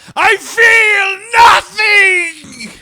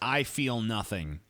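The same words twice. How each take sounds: First: It is shouted with strong, dramatic emotion. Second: It is said flatly, without emotion.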